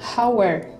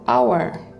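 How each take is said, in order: First: The word begins with an h sound. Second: The word begins with a vowel, no h. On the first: The speaker calls it wrong. "Bukan hour" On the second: The speaker calls it right. "bacanya adalah hour. Jadi, hour"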